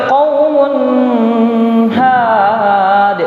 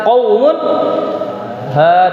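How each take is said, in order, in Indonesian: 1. Huruf n ditahan dengan dengung sengau yang panjang. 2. Huruf n diucapkan dengan jelas tanpa dengung sengau. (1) "Tidak boleh bilang" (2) "yang benar adalah"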